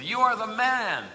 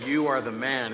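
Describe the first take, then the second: First: It sounds admiring and casual. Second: It sounds accusing and grave.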